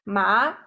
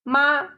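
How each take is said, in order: First: The pitch rises from mid to high. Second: The pitch stays high and level. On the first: It means fibrous crops. "using the second tone 二声" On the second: It means mother. "using the 一声 first tone"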